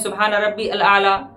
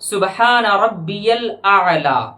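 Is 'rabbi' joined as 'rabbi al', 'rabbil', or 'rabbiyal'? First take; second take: rabbi al; rabbiyal. First: Rabbi and al are said as separate words. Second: Rabbi links to al with a y glide. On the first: The speaker calls it wrong. "या कुछ लोग पढ़ते हैं ... जो कि गलत है" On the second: The speaker calls it right. "सही ही क्या है तो सुने"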